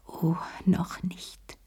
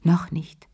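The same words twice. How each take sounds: First: Slow, much softer whisper of noch nicht; hushed, slowed self-warning; to herself, whispered. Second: Said in the usual way. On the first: A narrator's reading. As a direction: let Oh noch nicht fade to a breath. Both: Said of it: "sagte sie sich".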